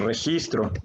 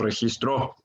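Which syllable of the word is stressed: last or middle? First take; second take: middle; last. First: The stress is on the middle syllable. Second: The stress is on the last syllable. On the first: It is the noun meaning a record. The speaker calls it right. "sabemos que es la sílaba, el his, la que más fuerte suena" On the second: It is the past tense of the verb. The speaker calls it wrong. "ni decimos registró, eso ya sería otra palabra, sería el pretérito"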